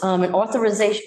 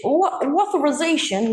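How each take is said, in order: First: Said in the usual way. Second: Authorization said in a higher Boston accent, dropped r. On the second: Shown as a demonstration. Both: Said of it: "that's my Boston accent".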